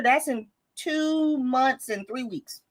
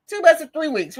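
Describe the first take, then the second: First: Slow, deliberate. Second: Higher and louder, each word hit; emphatic repeat. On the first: Stressing how soon year ends. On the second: Host stressing the deadline to her viewers, emphatic. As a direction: push the deadline home to viewers. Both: Real, not acted.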